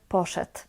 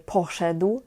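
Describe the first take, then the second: First: The word is said in a relaxed, reduced form. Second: Every sound of the word is clearly pronounced. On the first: "kiedy mówię normalnie, naturalnie, mówię poszedł" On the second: "Ja staram się je ładnie mówić, teraz mówię poszedł"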